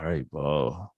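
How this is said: It sounds astonished and surprised.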